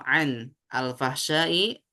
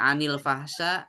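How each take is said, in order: First: The words are said separately without linking. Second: The words are joined with a linking vowel. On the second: "ketika kita bacanya anil fahsya"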